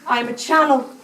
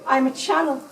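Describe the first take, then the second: No difference in how they are said.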